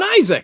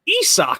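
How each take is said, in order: First: The name sounds like the common name Isaac. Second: The name sounds like 'ee' plus 'sock'. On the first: The speaker calls it wrong. "not even Isaac" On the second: The speaker calls it right. "it's pronounced Esoc"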